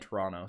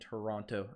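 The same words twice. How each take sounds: First: The second T is dropped. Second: The second T is clearly pronounced. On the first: It is how the speaker talks every day. "If I'm talking every day, I'm saying Toronto" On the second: It is a careful voice put on for the video. "I'm trying to inflect my voice, and when I do that, I pronounce the T's"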